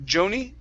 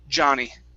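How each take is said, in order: First: The first vowel is an 'oh' sound. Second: The first vowel is an open 'ah' sound. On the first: The speaker calls it wrong. "Instead of Joni, Joe" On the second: The speaker calls it right. "it's Ja. Johnny"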